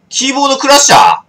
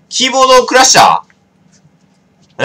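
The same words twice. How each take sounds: First: Said in the usual way. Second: Slow, stretched and loud, like a dramatic reveal; drawn-out mock drama. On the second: Real, not acted. To the stream about the keyboard, a slow theatrical announcement. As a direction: savour the word as if announcing a twist.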